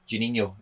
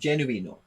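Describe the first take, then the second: First: The name is said with a Scottish accent. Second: The name is said with an Italian accent. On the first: The speaker calls it wrong. "when I say it in my Scottish accent" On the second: The speaker calls it right. "as if you're Italian"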